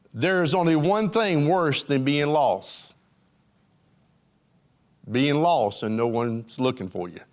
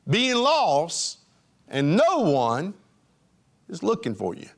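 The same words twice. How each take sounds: First: Grave, low reveal; solemn statement. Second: Weighty preacher pauses on being lost and no one; slow dramatic emphasis. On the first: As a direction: let the pause land, then drop the voice on Being lost and no one's looking for you. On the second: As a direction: let each piece hang, fading on the last. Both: Shown as a demonstration. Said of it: "I emphasize the word one".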